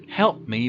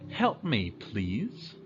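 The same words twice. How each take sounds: First: Curt demand. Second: Polite request. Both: Shown as a demonstration.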